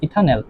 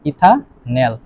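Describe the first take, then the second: First: Said in the usual way. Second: ইথানল split as ইথা, then ন্যাল; syllable-by-syllable pronunciation. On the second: Shown as a demonstration. Teacher showing how the aldehyde is pronounced, split syllables. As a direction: say ইথানল in two parts, ending on ন্যাল. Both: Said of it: "এটার উচ্চারণ কি হবে".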